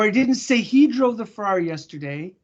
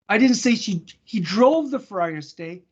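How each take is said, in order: First: The stress falls on the word he. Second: The stress falls on the word drove. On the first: A different person was named. "I said she" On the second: A different action was named. "I said he I didn't say he parked it"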